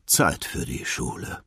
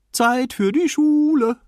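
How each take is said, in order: First: Weary father just waking; sleepy resignation. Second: Put-on sung, high, drawn-out child's singsong; singing to himself. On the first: Acted. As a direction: say it with a drowsy sigh. Sleepy father gives in and gets up. (verschlafen und ergeben) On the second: A narrator's reading. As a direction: sing it loud and high in delight. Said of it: "sang Nemo vor sich hin". (sung, in hohem Singsang vor sich hin singen)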